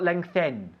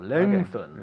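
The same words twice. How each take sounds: First: The word is said in a tense, careful way. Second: The word is said in a relaxed, easy way. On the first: The speaker calls it wrong. "Not lengthen" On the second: The speaker calls it right. "más relajado"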